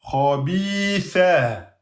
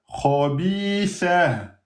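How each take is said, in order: The two takes are said the same way.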